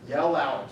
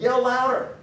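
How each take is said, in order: First: Said in the usual way. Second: Loud, high taunting bark; mocking jeer. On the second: Elijah goading Baal's prophets, loud high mock jeer. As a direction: goad them into yelling louder. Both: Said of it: "He's mocking him".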